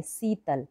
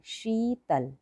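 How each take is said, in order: First: शीतल said as "sitel" with plain s; शीतल with a hissed s, not sh; wrong Hindi pronunciation. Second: शीतल said with a clear sh sound; शीतल starting with sh as in shoe; correct Hindi pronunciation. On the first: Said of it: "कई बच्चे ऐसे पढ़ेंगे". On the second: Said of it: "इसको ऐसे पढ़ेंगे". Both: Shown as a demonstration.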